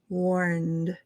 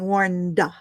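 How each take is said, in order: First: The word ends crisply on the D sound. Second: An extra 'uh' sound follows the final D. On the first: The speaker calls it right. "You can hear my D" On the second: The speaker calls it wrong. "that's what we call the tail uh"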